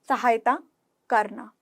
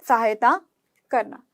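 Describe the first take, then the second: The two takes are said the same way.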